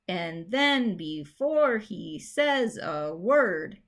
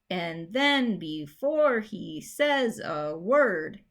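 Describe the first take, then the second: First: Stress falls on the second syllable of each beat. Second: The same.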